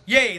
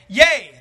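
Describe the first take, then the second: First: It is said in a solemn, serious tone. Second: It is said in a joyful, cheering tone. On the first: The verse is about fear and death. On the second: The verse is a happy declaration of safety.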